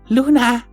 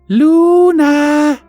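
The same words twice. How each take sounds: First: The name is said quietly and gently. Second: The name is said a little louder.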